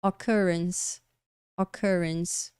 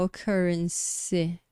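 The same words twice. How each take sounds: First: Occurrence ending cleanly on s, silent last e; final em S. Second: Occurrence with an extra vowel after the s; final E pronunciado. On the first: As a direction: stop occurrence on the s sound. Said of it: "termina com um som de S". (occurrence terminando com som de S) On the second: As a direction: wrongly sound the last e, occurren-see. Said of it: "A gente não vai falar". (occurrence errado, com E pronunciado no final) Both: Shown as a demonstration.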